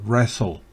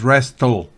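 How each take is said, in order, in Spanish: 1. El sonido de la t en el medio es silencioso. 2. El sonido de la t en el medio se pronuncia. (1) "esa T no se pronuncia" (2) "no es wrestle"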